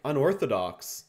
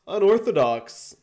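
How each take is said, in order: First: Said in the usual way. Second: "Unorthodox" shouted out, much higher and louder; loud exclaim. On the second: Real, not acted. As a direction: call "Unorthodox" out like a stunned commentator. Commentating own match, repeats word.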